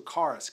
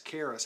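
First: "charis" as KAR-iss; first pronunciation. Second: "charis" as KAIR-iss; alternative pronunciation. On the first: Preacher offers one way to say "charis", as KAR-iss. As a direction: say "charis" with an open "ah". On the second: Preacher offers another way to say "charis", as KAIR-iss. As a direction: say "charis" to rhyme with Paris. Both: Shown as a demonstration. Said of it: "however you pronounce that".

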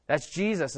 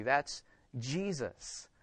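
First: Said in the usual way. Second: Soft and very slow, reverent; softly savoured refrain; hushed aside. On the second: Real, not acted. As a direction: breathe it out in awe.

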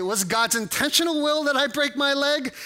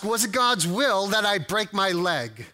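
First: "intentional will" raised in pitch; pointed question turning on "intentional"; stress on intentional. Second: Said in the usual way. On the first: Shown as a demonstration. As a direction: lift "intentional" and keep the question high. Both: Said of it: "depends on how you ask it".

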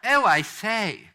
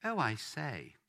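First: Loud, high, drawn-out posh English; much posher royal. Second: Put-on lightly posh English royal accent; a mild posh Queen-of-England touch. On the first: Shown as a demonstration. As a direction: exaggerate the posh royal accent, slow and ringing. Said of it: "much posher than that". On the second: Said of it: "gonna be a bit posh about this".

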